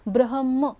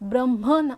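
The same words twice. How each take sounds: First: The h sound comes before the m. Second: The h sound comes after the m. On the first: The speaker calls it right. "ह आधी म नंतर" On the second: The speaker calls it wrong. "ब्रह्म नाही"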